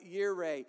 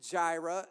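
First: The word begins with a Y sound. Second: The word begins with a J sound. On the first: "The J is silent" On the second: "If you pronounce it Jehovah and Jireh"

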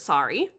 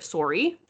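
First: It is said the common non-Canadian way. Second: The vowel sounds almost like a double O. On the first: "A lot of the world pronounces it sorry" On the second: "we pronounce it almost like it has a double O"

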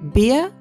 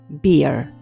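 First: It ends without an R sound. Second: It ends with a clear R sound.

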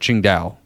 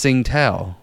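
First: The name is said with a Chinese-style pronunciation. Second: The name is said with a plain American pronunciation. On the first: The speaker wants to show they have been to China. "if you are overseas, or if you have to tell someone you've been to China before" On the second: The speaker is in the United States. "if you're in the States, you're going to say it's Tsingtao"

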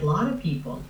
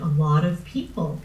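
First: The 'a' before 'lot' is dropped. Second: The 'a' before 'lot' is clearly pronounced. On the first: "Tommy really said a lot of people, and he dropped the A" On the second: "the transcript would say that Tommy said a lot of people"

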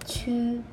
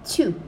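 First: The pitch stays high and level. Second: The pitch falls sharply from high.

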